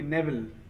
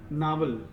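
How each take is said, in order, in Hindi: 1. पहला स्वर 'ay' ध्वनि है। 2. पहला स्वर लंबा 'ah' ध्वनि है। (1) "सही प्रोनाउंसिएशन क्या है? हाँ, नेवल" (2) "इसको आप प्रोनाउंस कर रहे थे नावल"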